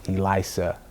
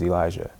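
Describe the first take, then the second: First: The name has its native, non-American pronunciation. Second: The name has an American pronunciation. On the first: "more where he's from, ... I think is how you really pronounce it" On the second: "I just Americanized it"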